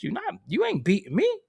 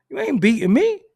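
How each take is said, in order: First: Said in the usual way. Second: Higher, louder, stress on "me"; a boast to the dealer, loud and proud; loud defiant boast. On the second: Shown as a demonstration. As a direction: throw "You ain't beating me" back louder and higher.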